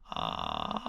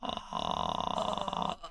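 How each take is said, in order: First: It is creaky fry mixed with falsetto. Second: It is a plain low creaky fry.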